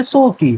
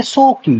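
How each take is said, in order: First: Fond pet-name tone, slightly higher; affectionately. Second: Said in the usual way. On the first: Shown as a demonstration. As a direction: say it lovingly like a nickname. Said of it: "प्यार से बोलेंगे". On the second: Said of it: "short में बोलेंगे".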